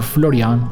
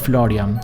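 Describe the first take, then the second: First: The name is said with Italian sounds. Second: The name is said with English sounds.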